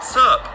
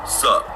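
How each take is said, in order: First: High, loud mock-bewildered echo; taken-aback echo. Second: Misty. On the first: Travellers echoing the nun's greeting, high and taken aback. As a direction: throw the greeting back, pitched way up in disbelief. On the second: Retold or imitated. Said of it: "and Misty goes".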